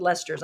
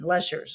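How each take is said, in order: First: "Lester's" with a clear st in the middle; misspelled name as written. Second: "Lester's" with a sh sound in the middle, no t; corrected name pronunciation. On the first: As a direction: say "Lester's" as LES-terz. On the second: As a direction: say "Lester's" as LESH-erz. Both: Shown as a demonstration. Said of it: "You put Lester's".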